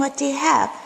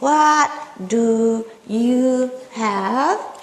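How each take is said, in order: First: The question is said at normal conversational speed. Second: The question is said slowly, word by word. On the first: "At regular speed" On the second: "They're not saying"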